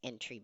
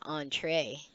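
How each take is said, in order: First: It sounds like the English word entry. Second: It sounds like ontray, ending in a long ay. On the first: Someone unfamiliar with the word reads it this way. The speaker calls it wrong. "if you're not familiar with the word, I would you would read it as entry" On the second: Someone familiar with the word says it this way. The speaker calls it right. "But if you're familiar with it, it's entree"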